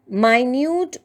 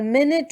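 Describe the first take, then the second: First: The word has a long 'eye' vowel sound. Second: The word has a short, weak vowel sound. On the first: Something is very small. "with an I sound talks about something small" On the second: A small measure of time. "with a small e sound again talks about a small measure of time"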